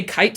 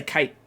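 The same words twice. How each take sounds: First: KITE with the final T released; sounded final T. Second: KITE with the final T held back, unreleased; dropped final T. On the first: Utah speaker shows one option, KITE with its T. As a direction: finish KITE on a clear T. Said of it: "I can say kite sometimes". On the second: Utah speaker shows the other option, KITE without its T. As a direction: stop KITE short without sounding the T. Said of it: "I won't make the sound". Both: Shown as a demonstration.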